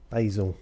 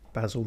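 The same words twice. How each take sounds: First: The name has an American pronunciation. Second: The name has a non-American pronunciation.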